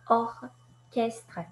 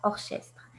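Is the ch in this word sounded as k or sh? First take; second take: k; sh. First: The ch is sounded as k. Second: The ch is sounded as sh. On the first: The speaker calls it right. "c'est orchestre et non pas" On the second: The speaker calls it wrong. "et non pas orchestre"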